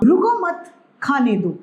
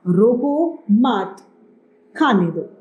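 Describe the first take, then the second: First: रुको मत run together, pause, then खाने दो; group रुको मत as one, break before खाने; pause after मत. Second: Slow, loud रोको, break, मत, then खाने दो; pause after रोको. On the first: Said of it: "यानी रोको मत उसे लगातार खाने दो". (मत के बाद विराम) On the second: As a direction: set रोको apart with a clear pause before मत. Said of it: "इन दोनों वाक्यों में बहुत अंतर है". (रोको के बाद विराम, धीरे और ज़ोर से) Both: Shown as a demonstration.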